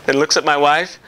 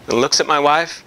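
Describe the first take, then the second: No difference in how they are said.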